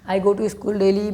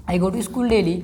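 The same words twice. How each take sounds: First: I go to school daily spoken very slowly, word by word; slow dictation. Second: Said in the usual way. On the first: Shown as a demonstration. Teacher dictating to students, very slow. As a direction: spell it out slowly for the class to copy.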